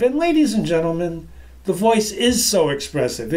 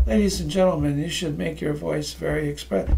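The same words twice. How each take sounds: First: Lively, varied tune; expressive delivery. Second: Softer, dull and lifeless; dull lifeless delivery. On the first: Speaker shows the audience a lively voice, expressive. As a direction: let the voice move and play. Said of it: "If you let it express, it's expressive". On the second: Speaker shows the audience how not to sound, dull and lifeless. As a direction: drain all life from the words. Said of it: "I could talk like this". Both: Shown as a demonstration.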